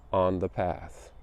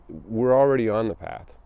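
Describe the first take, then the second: First: On the path, slowed and hushed to close the quote; slow, soft close. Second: Already lifted and leaned on; stress on already. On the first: Closing a quote to meditation walkers, slow and hushed. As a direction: let the last words fall quiet and slow. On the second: Echoing the quote to the group, already stressed. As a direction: lean into already to echo the quote. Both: Shown as a demonstration.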